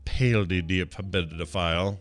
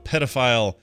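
First: It is said in a British accent. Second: It is said in an American accent.

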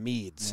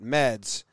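First: The vowel sounds like the one in 'seed'. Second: The vowel sounds like the one in 'bed'. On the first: This is how others mistakenly say the name. The speaker calls it wrong. "the announcer called him Meads, and he didn't like it" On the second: This is how the player himself says his name. The speaker calls it right. "he pronounces it Meds"

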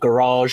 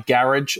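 First: It is said with an American pronunciation. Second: It is said with a British pronunciation. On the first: This is the listeners' way of saying it. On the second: This is the speaker's own way of saying it.

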